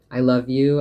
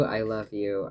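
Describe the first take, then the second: First: Bursting out loud and high; loud declaration. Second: Said in the usual way. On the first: Acted. Telling a loved one she loves them, calling it out loud. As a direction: shout the love out, then let it settle. Repeated love declarations to someone.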